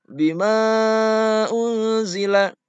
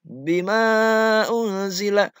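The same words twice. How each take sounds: No difference in how they are said.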